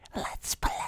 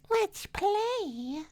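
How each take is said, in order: First: It is said in an ordinary voice. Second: It is said in a put-on cat voice.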